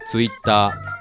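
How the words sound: It is said with Japanese katakana-style sounds. "日本語は日本語でTwitter"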